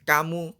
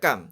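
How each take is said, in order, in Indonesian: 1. Kata ini berakhir dengan vokal u. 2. Kata ini berakhir dengan m tanpa vokal. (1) "Tidak boleh" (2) "Cara membacanya sukun terus"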